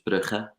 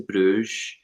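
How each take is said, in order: First: The name is pronounced the Dutch way. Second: The name is pronounced the English way. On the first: The speaker calls it right. "the way that we pronounce that in Flemish and Dutch is Brugge" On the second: The speaker calls it wrong. "I can't believe I just said Bruges"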